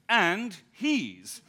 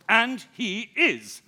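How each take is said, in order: First: The words run together into a contraction. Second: Each of the three words is said separately. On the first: "the sloppy manner in which the poorly house-trained breed of American youth" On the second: "the three words"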